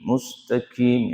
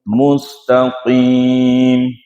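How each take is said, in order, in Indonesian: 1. Bunyinya k biasa di depan. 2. Bunyinya q tebal di belakang. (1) "Jangan sampai dibaca mustaqim" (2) "bukan huruf kaf, tapi huruf qaf"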